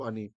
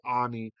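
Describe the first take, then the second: First: The first vowel is short and quick. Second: The first vowel is drawn out long. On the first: It is the usual form of the word. "instead of Ani" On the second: It is the last word of the verse. "which lengthens it to Ani"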